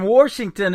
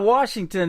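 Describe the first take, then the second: First: It is said with a Southern accent. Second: It is said with a standard accent. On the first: "I would let the South come out of my mouth" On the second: "instead of"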